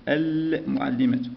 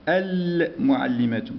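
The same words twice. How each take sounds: Both takes have the same delivery.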